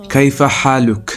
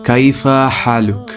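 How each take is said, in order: Both takes have the same delivery.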